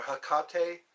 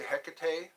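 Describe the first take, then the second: First: Hecate said huh-KAH-tay; Hecate as huh-KAH-tay, stress on KAH; alternative pronunciation. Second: Hecate said HEK-uh-tay; Hecate as HEK-uh-tay, stress up front; alternative pronunciation. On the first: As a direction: stress the middle syllable of Hecate. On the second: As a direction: stress the first syllable of Hecate. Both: Shown as a demonstration. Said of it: "or Hecate".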